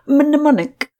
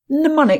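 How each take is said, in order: First: The initial M sound is pronounced. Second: The initial M is silent. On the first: The speaker calls it wrong. "I always get that word wrong" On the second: The speaker calls it right. "Silent M"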